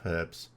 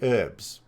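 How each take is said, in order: First: The word starts with an h sound. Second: The word starts without an h sound. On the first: "instead of" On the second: "do a Frenchy thing"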